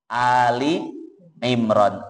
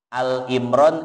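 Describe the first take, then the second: First: The first word is said with a final 'i'. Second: The first word is said short as 'Al'. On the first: The speaker calls it right. "Yang betul Ali" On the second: The speaker calls it wrong. "bukan Al ya"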